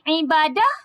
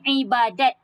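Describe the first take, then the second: First: The word ends with an h sound. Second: The word ends with a t sound. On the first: "dua variasi sebutan dia. Dia boleh jadi ibadah" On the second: "dia juga boleh jadi ibadat"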